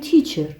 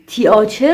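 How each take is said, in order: First: The middle vowels are sounded as one long vowel. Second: The middle vowels are sounded as two separate vowels. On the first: The speaker calls it right. "ولی ما میگیم تیچر" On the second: The speaker calls it wrong. "تیاچر نوشته میشه"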